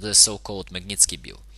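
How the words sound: It is read in a Russian English accent. "let's now try to pronounce this in Russian English"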